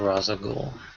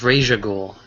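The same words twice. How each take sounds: First: The first name does not end with 'sh'. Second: The first name ends with an 'sh' sound. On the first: The speaker calls it wrong. "not Ra's al Ghul" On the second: The speaker calls it right. "it's Ra's al Ghul, ... it's Raish"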